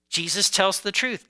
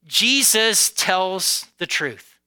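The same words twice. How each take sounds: First: Said in the usual way. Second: Each word slowly and weightily, "Jesus tells the truth"; slow emphasis. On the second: Shown as a demonstration.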